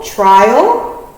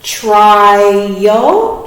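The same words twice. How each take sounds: First: Said in the usual way. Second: "Trial" stretched as tri and al; careful split read of "Trial"; syllable split demo. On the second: Shown as a demonstration. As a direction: say "Trial" slowly in two parts. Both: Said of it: "What would this one be".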